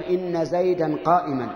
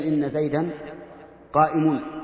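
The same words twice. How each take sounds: First: "قائما" ending in -an, qā'iman; accusative ending. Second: "قائم" ending in -un, qā'imun; nominative ending. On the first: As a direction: sound the -an clearly on "قائما". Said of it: "ينصبون بها الاسم والخبر". (نطق "قائما" بالنصب) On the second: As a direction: sound the -un clearly on "قائم". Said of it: "بدل من". (نطق "قائم" بتنوين الضم) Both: Shown as a demonstration.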